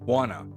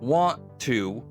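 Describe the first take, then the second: First: The phrase is shortened to a reduced form. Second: The phrase is said in its full form.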